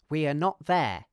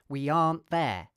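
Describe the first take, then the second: First: Every word is said in full, uncontracted. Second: 'Are not' is contracted into one word. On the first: "I'll say each word, pronouncing R weakly" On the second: "you could contract are not"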